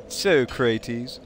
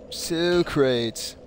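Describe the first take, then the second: First: "Socrates" as so-CRAY-teez; drawn-out mispronunciation. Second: "Socrates" as so-crates, two syllables; Bill and Ted pronunciation. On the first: Streamer trying out the name, "Socrates" as so-cray-teez. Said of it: "I know it's Soy-, Soycrates". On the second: Streamer quoting Bill and Ted, "Socrates" as so-crates. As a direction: say "Socrates" slowly, ending like wooden crates. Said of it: "default for to the Bill and Ted pronunciation". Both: Shown as a demonstration.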